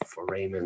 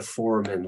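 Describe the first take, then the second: First: Foramen said fuh-RAY-men, middle syllable stressed. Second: Foramen said FOR-uh-men, first syllable stressed. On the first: Lecturer to students showing the other way, stress on RAY. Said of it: "other people say foramen". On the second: Lecturer telling students how she says it, stress on FOR. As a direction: say foramen with the weight on FOR. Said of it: "I say foramen because". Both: Shown as a demonstration.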